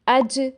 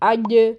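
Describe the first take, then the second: First: The j has air escaping, a hissy sound. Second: The j is made far back in the mouth. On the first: "हवा निकलती महसूस होती है, जो कि गलत है" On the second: "जीम के मखरज को बहुत पीछे ले जाते हैं"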